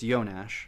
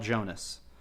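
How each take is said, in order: First: The name is said with Czech pronunciation. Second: The name is read as English spelling suggests. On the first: The speaker calls it right. "but it's Jonas because he's a Czechoslovakian guy" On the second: The speaker calls it wrong. "It's spelled Jonas"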